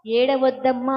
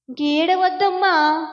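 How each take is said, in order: First: Tender comfort, lower. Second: Said in the usual way. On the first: Retold or imitated. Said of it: "ఆమెను చూసి ఏమన్నాడు".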